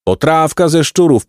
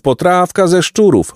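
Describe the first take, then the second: First: High hawker's call, weight on ze; hawker's cry. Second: Higher repeated call, weight on szczurów; hawker's cry. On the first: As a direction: sing out the stew to passers-by. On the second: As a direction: push the call further up. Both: A narrator's reading. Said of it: "wołał inny".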